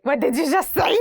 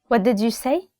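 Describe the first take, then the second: First: Higher-pitched mock outrage, rising at the end; indignant mom. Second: Said in the usual way. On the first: Mom to child who muttered under their breath, mock-indignant. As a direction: play a mom challenging backtalk. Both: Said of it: "the mom is like".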